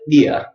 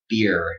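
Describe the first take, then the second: First: It ends in a vowel with no R. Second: It ends with a strong American R.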